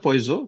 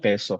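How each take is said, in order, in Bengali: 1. এটা 'oy' আর 'z' দিয়ে উচ্চারিত হয়। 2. এটা 'e' আর 's' দিয়ে উচ্চারিত হয়। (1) "বানানটা পয়জো" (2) "উচ্চারণ করা হয় পেসো"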